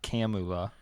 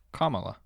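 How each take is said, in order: First: Kamala as CAM-oo-la; Kamala with A as in cat; rejected pronunciation. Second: Kamala as COMMA-la; louder, higher Kamala, front-stressed like comma; correct pronunciation. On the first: Host ruling out a version, Kamala said CAM-oo-la. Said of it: "It's not". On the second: Host reading out the answer, Kamala said COMMA-la. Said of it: "That's how it's pronounced". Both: Shown as a demonstration.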